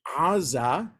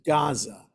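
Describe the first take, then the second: First: It starts with a sound deep in the throat. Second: It starts with a hard G sound. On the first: "something in the back of the throat" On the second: "it sounds like a hard G"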